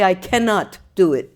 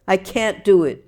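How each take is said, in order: First: The negative is spoken as full separate words. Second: The negative is contracted into one syllable. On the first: "He would say" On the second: "Contractions means"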